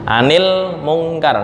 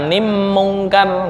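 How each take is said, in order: First: The L is kept clearly before the M. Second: The L merges into the following M sound. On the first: The speaker calls it right. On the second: The speaker calls it wrong.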